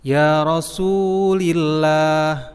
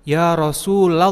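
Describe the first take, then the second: First: The vowel after the L is 'i'. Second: The vowel after the L is 'a'. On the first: The speaker calls it wrong. "lamnya itu kasroh atau khofad. Nah itu salah" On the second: The speaker calls it right. "maka itu harus fathah atau harus nasab"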